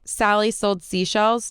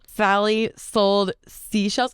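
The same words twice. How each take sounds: First: Said in the usual way. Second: "Sally sold seashells" through clenched molars, slow; teeth clenched S. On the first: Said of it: "I would go from saying". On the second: Shown as a demonstration. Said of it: "more painful to do it like that".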